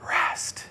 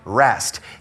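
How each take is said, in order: First: The word is whispered without full voice. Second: The word is spoken in a normal voice. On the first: "we're going to go rest and whisper it" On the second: "Instead of saying rest"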